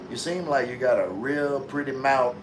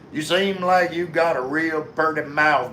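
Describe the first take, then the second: First: It is read in the speaker's normal accent. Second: It is said in a put-on regional accent. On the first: The speaker calls it wrong. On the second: The speaker calls it right.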